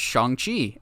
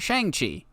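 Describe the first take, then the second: First: The name is said closer to Chinese pronunciation. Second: The name is said with an anglicized pronunciation. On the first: The speaker calls it right. "it's actually pronounced Shang-Chi" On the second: The speaker calls it wrong.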